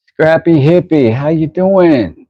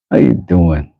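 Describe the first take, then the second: First: Much higher, drawn-out greeting; high-pitched hail. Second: Said in the usual way. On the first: Real, not acted. Streamer greeting a chat regular, high drawn-out hail. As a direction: hail them high, stretching "how you doing".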